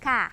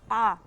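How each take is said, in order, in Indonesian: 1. Bunyinya ringan, ada hembusan udara. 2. Bunyinya berat, vokalnya lebih gelap. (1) "dibaca K ya. Jangan terlalu besar dan jangan ditahan" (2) "bukan ko, bukan. Tidak boleh kalau terlalu tebal"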